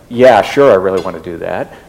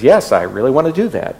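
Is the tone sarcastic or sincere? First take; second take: sarcastic; sincere. First: It is said in a sarcastic tone. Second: It is said in a sincere tone.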